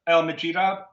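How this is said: The G is soft, as in the UK.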